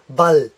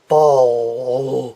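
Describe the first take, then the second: First: The L is light with the tongue forward. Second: The L is heavy, dark and deep in the throat. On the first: The speaker calls it right. "keep it light with the tongue forward" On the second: The speaker calls it wrong. "I have a very heavy L"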